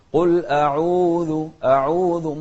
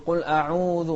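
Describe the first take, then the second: First: "قل أعوذ" loud and slow, long u purely oral; waw from the jawf. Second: "قل أعوذ" with the long u pushed through the nose; wrongly nasal waw. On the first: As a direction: project an open, un-nasal u in "قل أعوذ". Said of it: "انطلع من الجوف، فنقول". (مد الواو من الجوف بلا غنة في "قل أعوذ") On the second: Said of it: "ما انطلع من ال-، ال-، ال-، الخيشوم". (واو "قل أعوذ" من الخيشوم خطأً) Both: Shown as a demonstration.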